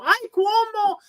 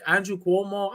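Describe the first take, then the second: First: High, gushing "Ay, Cuomo"; much higher, delighted old lady voice. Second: Said in the usual way. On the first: Retold or imitated. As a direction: squeal the name way up high like a charmed abuela. Old lady recognizing the name.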